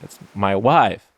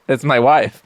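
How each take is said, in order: First: It is said in a Borat-like voice. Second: It is said in his normal voice.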